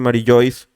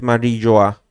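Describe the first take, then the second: First: The name ends with an 'ois' sound. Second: The name ends with an 'oa' sound. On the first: This is how some people say it. "he visto que hay gente que le dice Marillois" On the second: This is how it is said in Japanese. "en japonés Marilloa"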